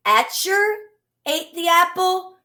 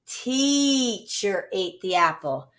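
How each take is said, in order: First: Teacher said as etcher, pitched higher; wrong short-e try. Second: Teacher with a long ee, slowly; right long e. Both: Shown as a demonstration. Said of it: "What vowel pair would you use then?".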